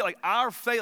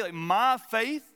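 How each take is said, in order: First: Our faith, pressing on our; stress on our. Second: My faith, slow with my stretched and rising; my, lingered on and lifted; stress on my. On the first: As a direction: lean on the word our. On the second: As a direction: draw out the word my, questioning. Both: Shown as a demonstration.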